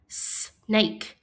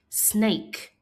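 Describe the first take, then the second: First: "Snake" split into a held "sss", then "nake"; sounded out. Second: Said in the usual way. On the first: Shown as a demonstration. Teacher asking pupils to listen, Snake split as s, nake. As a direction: pause after the S in "Snake".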